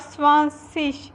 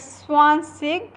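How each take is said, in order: First: The word ends with a soft 'ish' sound. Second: The word ends with a hard 'ig' sound. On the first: "or ish" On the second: "You read it as ig"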